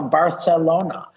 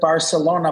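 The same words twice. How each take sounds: First: The middle consonant is a lisped TH sound. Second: The middle consonant is a plain S sound.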